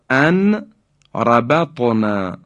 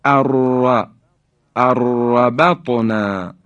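First: ان ربطنا as an, pause, rabatna; unmerged nun. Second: اربطنا as arrabatna, long trill; slow demo, hold the r in اربطنا; nun dropped, doubled ra. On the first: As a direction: keep ان apart from ربطنا. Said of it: "نون ساکن به حرف را رسیده". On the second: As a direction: roll the ر of اربطنا with no n. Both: Shown as a demonstration.

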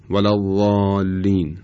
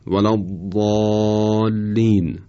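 First: Thin, unvelarized ض in «الضالین»; ضاد بدون اطباق. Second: Slow, emphatic ض in «الضالین»; ضاد با اطباق. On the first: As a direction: say «الضالین» with a light ض, tongue away from the palate. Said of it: "اگر بدون اطباق بخوایم بگیم شاید اینطور بشه". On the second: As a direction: draw out «الضالین» with a heavy ض, tongue raised to the palate. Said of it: "ضاد اونطور که باید تلفظ بشه". («الضالین» کشیده با ضاد مُطبَق) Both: Shown as a demonstration.

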